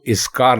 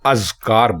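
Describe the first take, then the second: First: The word begins with an i vowel. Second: The word begins with an a vowel. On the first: The speaker calls it wrong. "आप इसको इसकार ना बोलें" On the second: The speaker calls it right. "अलिफ के ऊपर जबर है ... इसको अजकार बोलें"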